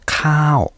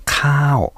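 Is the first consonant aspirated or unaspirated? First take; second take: Aspirated; Aspirated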